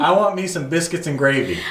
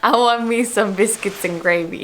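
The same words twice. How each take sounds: First: Higher-pitched Southern accent demo. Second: Copying a Southern accent phrase; learner's imitation of Southern English; attempted Southern accent. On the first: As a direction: model folksy Southern English for a learner. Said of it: "say some phrases in Southern". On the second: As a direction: repeat it in a put-on Southern accent. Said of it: "you say it and I repeat it". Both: Shown as a demonstration.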